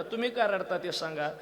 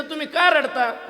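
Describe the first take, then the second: First: Said in the usual way. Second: Much higher, louder, slow "का"; loud question. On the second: Retold or imitated. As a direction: call out the question slowly. Husband asks the other man. (उंच, मोठ्या आवाजात सावकाश विचारणे)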